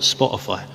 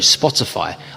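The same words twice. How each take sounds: First: The t sound in the middle is dropped. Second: The t sound in the middle is pronounced. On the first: The speaker calls it wrong. "I've lost my T's a lot recently" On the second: The speaker calls it right.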